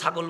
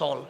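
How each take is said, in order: First: The word keeps its middle g sound. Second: The word drops its middle g sound. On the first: This is how the standard language says it. "আমরা ছাগলকে ছাগল বলি না" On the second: This is how speakers from Chittagong say it. "গ বলতে কষ্ট হয়, আমরা বলি সল"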